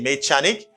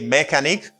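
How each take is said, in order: First: The ch is said like ch in church. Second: The ch is said like a k sound. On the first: The speaker calls it wrong. "You don't say mechanic" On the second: The speaker calls it right. "You pronounce C H as k"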